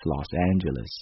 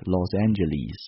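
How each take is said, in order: First: It is said in an American accent. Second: It is said in a British accent.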